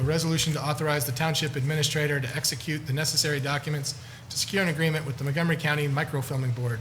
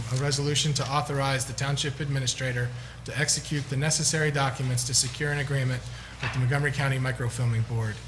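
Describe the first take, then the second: The two takes are said the same way.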